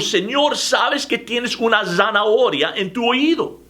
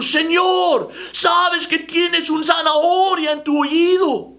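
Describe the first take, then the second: First: It is said somewhat louder. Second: It is almost shouted.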